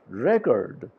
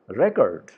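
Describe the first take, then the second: First: The stress is on the first syllable. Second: The same.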